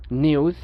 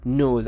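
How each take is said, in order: First: British নিউজ as NYOOZ; Y glide in নিউজ; British pronunciation. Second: American নিউজ as NOOZ; no Y glide in নিউজ; American pronunciation. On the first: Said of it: "ব্রিটিশরা ইউ উচ্চারণ করে". (নিউজ-এ ইউ, British) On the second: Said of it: "আমেরিকানরা উচ্চারণ করবে কি". (নিউজ-এ উ, American) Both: Shown as a demonstration.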